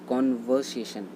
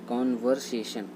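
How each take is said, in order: Both takes have the same delivery.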